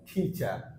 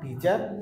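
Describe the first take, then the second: First: The first t is said with a puff of air. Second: The first t is said without a puff of air. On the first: The speaker calls it right. "sound করব teacher" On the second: The speaker calls it wrong. "not teacher"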